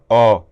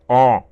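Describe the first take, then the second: First: The vowel is said in a plain, open voice. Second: The vowel is said in a nasal, throaty voice. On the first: "ele não fala ó" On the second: "uma voz de pato"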